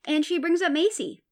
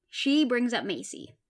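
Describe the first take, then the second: First: Macy said higher and louder, punched out; emphatic repeat. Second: Said in the usual way. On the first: Shown as a demonstration. Recapping the show to viewers, punching the reveal. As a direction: push "brings up Macy" hard and high.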